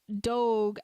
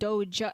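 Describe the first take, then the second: First: The word ends with a hard G sound. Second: The word ends with a J sound. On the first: The speaker calls it wrong. "pronounced Doge as in G" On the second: The speaker calls it right. "not Doge as in J, in the J sound"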